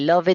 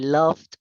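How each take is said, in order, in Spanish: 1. La terminación se pronuncia como una sílaba extra. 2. La terminación no añade ninguna sílaba extra. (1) "si tú dices esto" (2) "la pronunciación correcta es"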